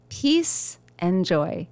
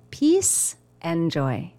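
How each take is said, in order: Both takes have the same delivery.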